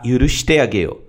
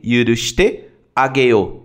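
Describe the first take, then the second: First: Said in the usual way. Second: Slow, careful articulation; slow drill. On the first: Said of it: "teacher rereads full example sentence". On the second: Shown as a demonstration. Teacher breaking down the verb for students, slow and careful. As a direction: lay each syllable out for the learner. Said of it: "teacher breaks down phrase slowly".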